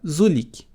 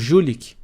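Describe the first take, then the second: First: The word begins with a buzzing z sound. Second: The word begins with a zh sound. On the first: It is a small, strong, muscular fellow. The speaker calls it wrong. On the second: It is a grown, repulsive fellow. The speaker calls it right.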